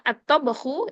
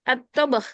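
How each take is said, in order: First: The word ends with a short u vowel. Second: The word ends on the consonant, no vowel. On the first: The speaker calls it wrong. "ketika kita bilang at-tabakhu" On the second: The speaker calls it right. "paling belakangnya kita sukunkan aja"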